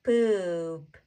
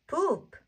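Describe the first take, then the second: First: "Poop" stretched slowly with a long vowel; drawn-out blend. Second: "poop" said short with high, falling pitch; short, joined-up syllable. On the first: Teacher blends sounds slowly first. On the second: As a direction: snap "poop" into one quick syllable. Teacher repeats the blend quickly. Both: Shown as a demonstration.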